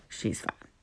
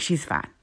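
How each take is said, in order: First: "She's fine" breathed out as a soft whisper, much quieter; whispered repeat. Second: Said in the usual way. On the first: Retold or imitated. Repeated under her breath.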